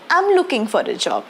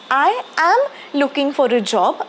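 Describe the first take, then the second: First: 'I am' is shortened into one contracted syllable. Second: 'I am' is said as two separate full words. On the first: "that is called as contraction" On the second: "आय ॲम असे दोन वेगळे वेगळे शब्द"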